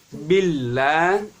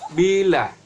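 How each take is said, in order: First: The l sound is held and doubled. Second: The l sound is short and single. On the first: The speaker calls it right. "Antara ba dengan lam itu harus langsung masuk" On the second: The speaker calls it wrong. "tidak boleh bila"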